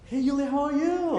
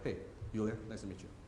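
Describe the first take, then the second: First: The greeting sounds warm and excited. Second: The greeting sounds reserved and professional.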